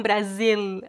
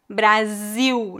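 First: Brasil with a clear final L, bɾazil; the L pronunciation Brazilians avoid; final L kept. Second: Brasil ending in a U sound, bɾaziw; slow Brazilian Brasil; Brazilian final L as U. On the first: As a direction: say Brasil with a real L at the end. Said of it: "não Brasil". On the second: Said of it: "O L é pronunciado como U". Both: Shown as a demonstration.

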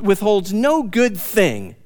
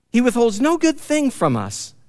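First: "no" leaned on, slow and falling; slow, with the weight on "no"; stress on NO. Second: "good" leaned on, falling after it; the weight moves to "good"; stress on GOOD. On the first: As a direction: hit the word "no" in "withholds no good thing", drawn out slow. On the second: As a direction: land on "good" in "He withholds no good thing from us". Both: Shown as a demonstration. Repeats verse, stressing different word.

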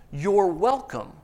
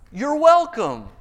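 First: Slow, self-satisfied you're welcome; a teen pleased with himself; smug teen. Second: High, loud, self-satisfied You're welcome; smug Saul. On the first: Retold or imitated. Teen handing back the stolen watch, slow and smug. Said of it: "And he goes". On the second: Acted. Saul to Samuel over the sheep, high smug you're welcome. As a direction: Saul acting like the teen who stole the watch. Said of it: "He says".

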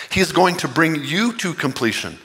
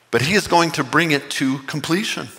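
First: "you" pressed as the key word, falling at the end; stress on you. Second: "is" pressed as the key word, falling at the end; stress on is. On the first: Pastor telling each listener God completes them, stressing "you". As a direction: point "you" straight at the listener. Preacher turns promise to listeners. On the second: Pastor assuring the congregation, stressing "is". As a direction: lean on "is" to insist he will finish it. Preacher stresses God's certainty. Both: Real, not acted.

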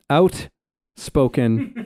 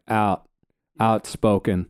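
First: "outspoken" in a Canadian accent, drawn out very slowly with a rising finish. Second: "outspoken" in an American accent, "out" like "owt" and a falling finish. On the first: Explaining Canadian versus American accents, giving the Canadian "outspoken" slowly. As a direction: stretch out "outspoken" the Canadian way and lift the end. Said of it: "like, the Canadian out". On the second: Explaining Canadian versus American accents, giving the American "outspoken". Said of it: "an American accent would be like". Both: Shown as a demonstration.

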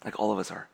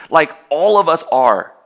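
First: Quiet, lower repeat of "Like all of us are"; soft echo. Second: Slow and louder, hit ALL in "like all of us are"; emphatic. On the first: Preacher quietly echoing his point to the congregation, soft. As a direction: let "Like all of us are" fall away softly. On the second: Preacher driving home the point to the congregation, emphatic. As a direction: lean hard on "all" in "like all of us are", drawn out. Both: Shown as a demonstration.

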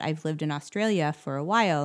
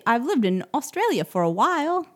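First: Said in the usual way. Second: Badly faked Australian accent, pitched high; hammed-up stab at sounding Australian; terrible Australian accent. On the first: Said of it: "Obviously, she didn't sound like that". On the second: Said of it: "That was terrible".

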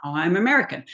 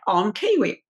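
First: Imitated American accent. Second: Imitated New Zealand accent; Kiwi accent. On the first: Castmate popping back into his role's accent, American accent. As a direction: switch straight into an American accent. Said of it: "like, pop in and out". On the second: Castmate showing he can pop out of accent, Kiwi accent. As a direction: put on a quick Kiwi accent. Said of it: "you know, he's Kiwi".

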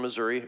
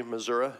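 First: Said in the usual way. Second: Missouri ending in "uh"; local pronunciation. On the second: Shown as a demonstration. Pastor saying Missouri as locals do, ending in "uh". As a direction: say Missouri as "Mizzour-uh". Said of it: "if you're from there".

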